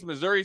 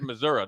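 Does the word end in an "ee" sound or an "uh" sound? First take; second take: ee; uh. First: The word ends with a full "ree" sound. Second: The word ends with a clipped "ruh" sound.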